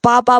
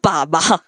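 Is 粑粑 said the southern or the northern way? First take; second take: southern; northern. First: It is said in the southern Mandarin way. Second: It is said in the northern way.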